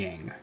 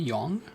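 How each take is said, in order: First: The vowel is pronounced like in yang. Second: The vowel is pronounced like in yong. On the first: This is how the spelling suggests it is said. "I was like convinced that this is Yang" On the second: This is how the official voice acting says it. "the voice acting was like Yong, like Y O N G or Y O U N G"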